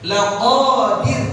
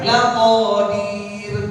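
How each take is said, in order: First: The final syllable is said short. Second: The final syllable is stretched long. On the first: The speaker calls it right. "terus dirnya dibaca pendek" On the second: The speaker calls it wrong. "Jangan nanti dibaca"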